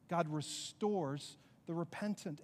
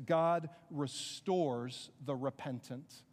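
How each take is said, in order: First: Said in the usual way. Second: "God restores the repentant." said slow and lower, weight on "God"; emphatic statement. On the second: Shown as a demonstration. Preacher announcing his third point, slow and weighty. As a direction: lay the main point down slowly and heavily. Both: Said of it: "So here's my third idea".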